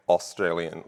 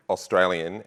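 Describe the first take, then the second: First: "Australian" with the Ost really leaned on; American pronunciation. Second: "Australian" with a rounded, light Aust at the start; Australian pronunciation. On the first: Australian speaker showing how Americans say "Australian", heavy Ost. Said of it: "you would really put the Ost into it". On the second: Australian showing conference audience how locals say it, native pronunciation. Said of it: "We would say Australian". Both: Shown as a demonstration.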